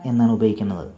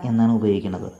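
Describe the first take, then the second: The two takes are said the same way.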